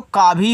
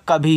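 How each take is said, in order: First: का भी with a long 'aa' after k; lengthened first vowel. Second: कभी with a short, unstressed 'a' after k; short first vowel. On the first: Teacher shows the unused word, का भी with long first vowel. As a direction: stretch का in का भी into a long open vowel. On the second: Teacher reads the correct word to learners, कभी with short first vowel. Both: Shown as a demonstration. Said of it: "अगर मात्रा लगाते तो का भी हो जाता".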